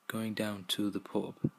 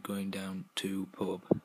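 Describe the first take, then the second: First: Every word is said in full. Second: The word 'the' is dropped entirely. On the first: "going down to the pub would be shortened to" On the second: "shortened to"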